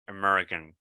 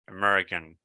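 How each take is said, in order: Both takes have the same delivery.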